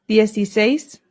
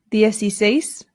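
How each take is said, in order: Both takes have the same delivery.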